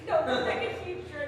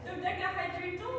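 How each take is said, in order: First: "dodecahedral" stated firmly without a questioning rise; settled correction. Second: "Dodecahedral" with a rising, doubtful end; questioning rise. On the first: Player settling on the charades word, "dodecahedral" said as a statement. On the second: Player unsure it is a word, "Dodecahedral" lifted into a question. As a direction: ask "Dodecahedral" as a question, half laughing. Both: Real, not acted.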